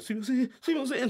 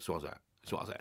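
First: Higher, hurried apologetic pleading; bow and apologize over and over; meek apology. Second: Low, soft grudging apology; sulky apology. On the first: Manager apologizing to the angry producer, high meek pleading. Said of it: "金巻を振りながら". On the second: Sulking comedian forced to apologize, low grudging mumble. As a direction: mumble it sulkily, not meaning it. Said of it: "ふてくさって". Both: Retold or imitated.

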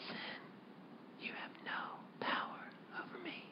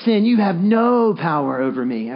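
First: Whisper. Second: "no" held long and punched; stress on no, with attitude. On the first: Preacher showing a private reminder in temptation, whispered. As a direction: whisper it so no one even has to hear. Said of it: "you could just whisper it". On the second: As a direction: throw extra weight and length onto "no". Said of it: "say it once with a little attitude". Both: Shown as a demonstration.

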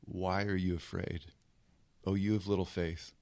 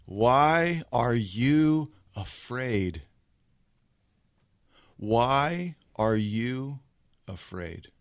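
First: Low, hushed question; quiet rebuke. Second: Very slow, stretched-out question; drawn-out challenge. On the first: Jesus gently facing his frightened disciples, quiet low rebuke. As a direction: drop the voice and ask it softly. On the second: Jesus just woken, facing his disciples, slow drawn-out challenge. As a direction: draw out WHY and YOU, let AFRAID drop. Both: Acted. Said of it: "looks him in the face and says this".

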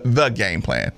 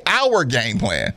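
First: "the" set apart and stressed, low voice. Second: "our" drawn out into two syllables; stress on OUR. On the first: Host shows the detached wording to avoid, stressing "the". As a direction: lean on "the", pitched low. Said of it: "At least say our game plan". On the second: Host urges the player to show ownership, stressing "our". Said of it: "Like, like ownership". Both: Shown as a demonstration.

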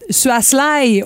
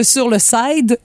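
First: "sly" in place of side; garbled English loanword, "sly"; mispronounced side. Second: Said in the usual way. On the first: Retold or imitated. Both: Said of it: "au lieu de sur le side".

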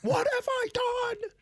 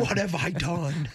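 First: Squeaky high, slowed mock horror; falsetto mock dismay. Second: Mock dismay. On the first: Son mimics mom realizing who Marge Schott is, falsetto mock dismay. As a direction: cry it out in a shrill put-on falsetto. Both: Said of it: "Once she finds out".

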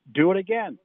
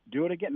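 First: Louder, commanding do it again; coach's barked order. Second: Said in the usual way. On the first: Retold or imitated. Coach orders veteran tight end to repeat the play, loud command. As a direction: order the drill redone, sharp and loud.

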